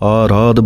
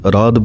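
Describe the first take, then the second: First: The first vowel is long. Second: The first vowel is short. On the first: The speaker calls it right. "ਐੜੇ ਦੇ ਕੰਨੇ ਨੂੰ ਬੋਲਣਾ ਹੈ" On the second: The speaker calls it wrong. "ਕਈ ਆਰਾਧ ਬੋਲ ਜਾਂਦੇ ਹਨ"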